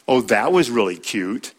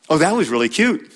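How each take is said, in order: First: Said in the usual way. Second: Sarcastic. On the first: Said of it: "Same words, different intonation". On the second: Shown as a demonstration. Teacher showing husbands how sarcasm sounds, sarcastic. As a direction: sneer it so "cute" stings. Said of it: "different intonation".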